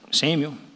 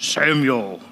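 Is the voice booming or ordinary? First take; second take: ordinary; booming. First: It is said in an ordinary speaking voice. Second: It is said in a big, booming voice.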